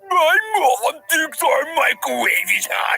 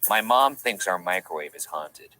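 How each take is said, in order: First: It is read in a put-on professor voice. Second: It is read in his own natural voice.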